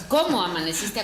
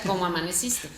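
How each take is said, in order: First: ¿Cómo amaneciste? said louder with lively stress on cómo; ¿Cómo amaneciste? given full expressive accent; expressive greeting. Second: ¿Cómo amaneciste? said flat and even, no stress; ¿Cómo amaneciste? with the accent left out; flat greeting. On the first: Teacher contrasting the two versions, expressive. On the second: Teacher showing the flat version, unstressed. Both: Shown as a demonstration. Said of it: "hay una diferencia en".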